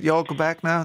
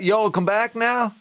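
First: Said in the usual way. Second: Higher, slow Texan drawl; mock Texan drawl. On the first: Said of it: "Is it". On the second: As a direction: stretch it out like a movie Texan. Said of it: "So is, is that".

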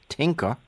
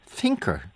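First: "tinker" opened with a hard T sound. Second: "thinker" opened with a soft TH. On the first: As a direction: say "tinker" with a plain T, no TH. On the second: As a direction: put the tongue-between-teeth TH on "thinker". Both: Shown as a demonstration. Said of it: "pronounce your T Hs".

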